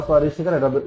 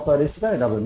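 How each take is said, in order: Both takes have the same delivery.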